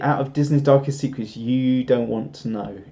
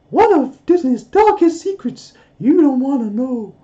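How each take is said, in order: First: It is said in his normal voice. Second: It is said in a Mickey Mouse voice.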